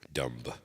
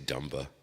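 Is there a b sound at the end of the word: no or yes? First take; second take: no; yes. First: The word ends in m, no b sound. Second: The word ends with an audible b sound. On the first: The speaker calls it right. "just like the B is silent" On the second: The speaker calls it wrong. "You don't say dumba"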